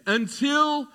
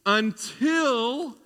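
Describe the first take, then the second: First: "Until" again, pitched up higher and held; stress on until. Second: "Until" drawn out high and long; stress on until. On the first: Preacher repeats his favourite word "Until", higher and ringing. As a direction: ring out "Until" like a refrain. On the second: The preacher lingers on "Until", a word he loves, lifting it high. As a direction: lean hard into "Until", stretched and high. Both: Shown as a demonstration. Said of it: "I love this word".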